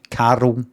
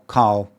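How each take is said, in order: First: The R is rolled, adding an extra vowel. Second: The R is not rolled; one syllable. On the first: The speaker calls it wrong. "I kind of roll my R's type of thing, so it ends up coming like Carol" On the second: The speaker calls it right. "you say Carl"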